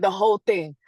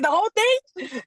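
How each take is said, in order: First: The whole thing, falling and settled; flat confirmation. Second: The whole thing, rising high in disbelief; incredulous question. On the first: Producer confirming the offer, flat falling statement. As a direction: land "whole" firmly, a calm final fall. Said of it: "And he's like". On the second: Retelling the producer's offer, incredulous rising question. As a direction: ask "thing" high and rising, can't believe it. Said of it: "I'm like". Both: Retold or imitated.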